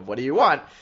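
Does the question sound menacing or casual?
casual. It sounds casual and not threatening.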